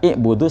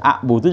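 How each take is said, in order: First: The word starts with an i vowel. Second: The word starts with an a vowel. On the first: "Jadi kalau dibaca i'budu salah ya" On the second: "Baca a'budu juga salah"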